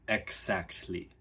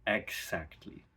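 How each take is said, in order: First: The middle consonants are voiceless. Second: The middle consonants are voiceless.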